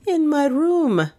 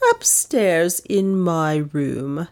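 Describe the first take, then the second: First: High, drawn-out pert reply. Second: Slow, icy answer at an even pitch. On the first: Maid answering the detective's questioning, pert and high. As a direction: answer pertly, pitched well up. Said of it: "said the latter pertly". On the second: Aunt answering the detective's questioning, icy and slow. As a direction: coolly draw out each word. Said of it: "Miss Cornelia's tones were icy". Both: A narrator's reading.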